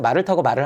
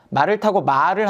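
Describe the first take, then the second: First: The second 말 is said short. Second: The second 말 is held long. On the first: "그냥 이렇게 짧게 얘기해서" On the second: "이게 장음이에요"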